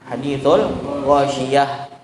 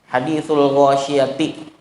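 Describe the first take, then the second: First: The phrase ends softly with an h sound. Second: The phrase ends with a full -ti syllable. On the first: The reader stops here in the usual way. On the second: The reader continues without stopping.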